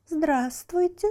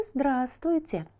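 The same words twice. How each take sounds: First: High, slow, rising hello; mocking greeting. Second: Slow, falling, quieter hello; softer greeting. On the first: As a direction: greet him sweetly, slowly. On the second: Acted. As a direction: settle the greeting down, ominous. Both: Water greets chick.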